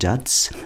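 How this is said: The word is said with an Italian-style pronunciation. "Die Italiener sagen Jazz"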